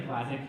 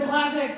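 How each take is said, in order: First: Said in the usual way. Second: "Classic" pitched very high in outrage; exasperated high cry. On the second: Retold or imitated. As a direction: squeal the word "Classic" in protest. The word he had to say.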